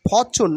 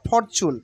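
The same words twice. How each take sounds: First: The R sound is silent. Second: The R sound is pronounced. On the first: The speaker calls it right. "আর will be silent হেয়ার" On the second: The speaker calls it wrong. "Not ফরচুন"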